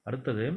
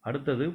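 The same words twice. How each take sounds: The two takes are said the same way.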